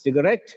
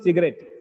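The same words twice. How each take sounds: First: The last syllable is louder and longer. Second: The last syllable has no extra stress. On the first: The speaker calls it right. "The last syllable is stressed here" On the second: The speaker calls it wrong. "It's not just cigarette"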